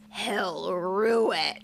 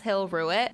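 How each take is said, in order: First: It is said in a sly, saucy way. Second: It is said in a plain, neutral way.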